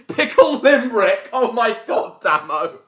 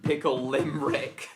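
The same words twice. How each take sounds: First: High, loud, laughing exclamation; laughing outcry. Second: Said in the usual way. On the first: Real, not acted. Friend cracking up at Pickle Limerick, loud and high. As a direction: burst out with delighted disbelief.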